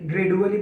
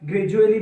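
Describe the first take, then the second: First: The consonant after 'gra' is a d sound. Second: The consonant after 'gra' is a j sound. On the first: The speaker calls it wrong. "গ্রেডুয়ালি বলি না" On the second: The speaker calls it right. "এটাকে আমরা গ্রাজুয়ালি বলে থাকি"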